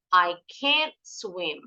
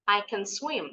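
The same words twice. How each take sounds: First: "can't" drawn out slowly, vowel lengthened; slow down and stretch the vowel of "can't"; long can't. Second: "can" swallowed fast as ken; quick can. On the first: Teacher shows pupils the slow negative "I can't swim". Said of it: "Bacanya agak lama". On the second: Teacher shows pupils the fast positive "I can swim". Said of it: "Kalau yang ini harus cepat". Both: Shown as a demonstration.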